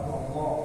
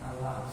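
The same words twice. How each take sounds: First: The L is heavy and thick. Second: The L is light and thin. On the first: The speaker calls it right. "kalau tebal Allah" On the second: The speaker calls it wrong. "tapi menyebutnya Allah"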